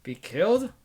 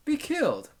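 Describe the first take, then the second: First: "Be killed?" asked with a rising tune, a little louder; questioning. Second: "Be killed." much higher on "Be", falling firmly at the end; decisive answer. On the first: The narrator asks himself who will be killed, rising. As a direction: test the words as a question. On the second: The narrator turns the question into his own verdict, falling. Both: Acted.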